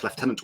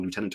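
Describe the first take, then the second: First: Lieutenant as "lef-TEN-ant"; British pronunciation. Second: Lieutenant as "loo-TEN-ant"; American pronunciation. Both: Shown as a demonstration. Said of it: "depending on where you are in the world".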